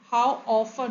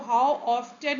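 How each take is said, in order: First: The t in often is silent. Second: The t in often is pronounced. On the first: The speaker calls it right. "होता है, टी यहाँ पे silent है" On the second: The speaker calls it wrong. "नहीं ये पढ़ा जाता है"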